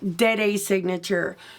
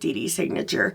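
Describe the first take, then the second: First: The first word sounds like 'dead-ah'. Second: The first word sounds like 'dee-dee'. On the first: The speaker calls it right. "as you heard me call it" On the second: The speaker calls it wrong. "we are all saying it incorrectly, at least those of us calling it D D Signature"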